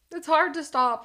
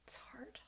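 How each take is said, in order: First: Said in the usual way. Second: Whispered, barely breathed. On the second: Real, not acted. Whispered confession to the chat about hot dogs. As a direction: breathe it out as a secret.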